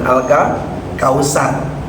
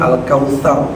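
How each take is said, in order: First: The middle consonant is a plain 's' sound. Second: The middle consonant is a soft 'th' sound. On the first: The speaker calls it wrong. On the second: The speaker calls it right. "pakai huruf sa ya"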